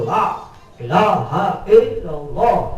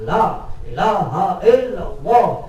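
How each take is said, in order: Both takes have the same delivery.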